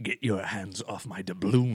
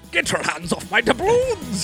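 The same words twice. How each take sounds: First: A restrained, Joker-like villain voice. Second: A big, over-the-top pirate voice.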